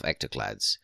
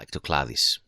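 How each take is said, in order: First: The name ends with a short "clads" sound. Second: The name ends with an extra "dis" syllable.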